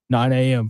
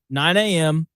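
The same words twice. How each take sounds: First: It is said in a lowered, deeper voice. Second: It is said in a normal speaking voice. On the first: It is meant to sound like a challenge. The speaker calls it right. "do I need to lower my voice?" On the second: It sounds like a friendly invitation. The speaker calls it wrong. "didn't sound very intimidating"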